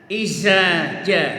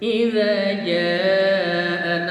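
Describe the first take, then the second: First: The word has a 'z' sound. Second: The word has a 'dh' sound. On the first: The speaker calls it wrong. "bagi sebagian orang yang tidak pernah ngaji" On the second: The speaker calls it right.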